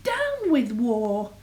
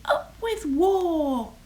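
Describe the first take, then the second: First: Slow, mildly hooted slogan; slow falling chant, lightly hooted. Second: High, slow rallying cry; drawn-out slogan, pitched high; shouted cheer. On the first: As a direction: draw out a little storybook protest hoot. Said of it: "And he hooted". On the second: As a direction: stretch out a high storybook shout. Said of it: "And they shouted". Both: A narrator's reading.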